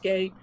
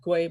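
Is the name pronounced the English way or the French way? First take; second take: French; English. First: The name is pronounced the French way. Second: The name is pronounced the English way. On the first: The speaker calls it right. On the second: The speaker calls it wrong. "like in English, uh, people would be tempted to pronounce it Guay"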